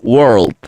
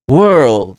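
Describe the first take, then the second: First: The r and l are clearly pronounced. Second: The r and l are softened away. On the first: "No es como el inglés americano que digamos world" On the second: "En world estamos aplicando las dos reglas que acabamos de ver"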